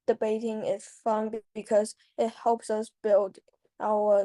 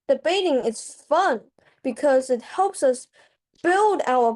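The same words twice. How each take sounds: First: It is spoken in a flat, unvaried monotone. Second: It is spoken with lively, varied pitch. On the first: The speaker sounds bored and uninterested. The speaker calls it wrong. "a monotone like" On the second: The speaker sounds engaged and enthusiastic. The speaker calls it right. "This sounds way better than just a monotone, and it's more exciting"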